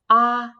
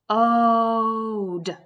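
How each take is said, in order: First: The vowel is said with a short sound. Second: The vowel is said with a long sound. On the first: The speaker calls it wrong. "If I was going to tap that word out, I would say" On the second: The speaker calls it right. "I'm going to try the other vowel sound"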